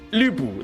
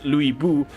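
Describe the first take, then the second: First: The first vowel is 'ee' with rounded lips. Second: The first vowel is a plain 'oo' sound. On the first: The speaker calls it right. "It's actually Li, but your mouth shapes like a U" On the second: The speaker calls it wrong. "I know they pronounce it as Louis Bu"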